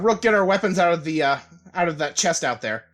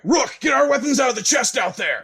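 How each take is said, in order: First: It is said in his own normal voice. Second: It is said in a put-on character voice.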